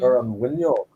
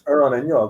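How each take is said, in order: First: The last word starts with a w sound. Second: The last word starts with a plain vowel. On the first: "you put the uh, eclipse after it" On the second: "It's Ur on Inyog"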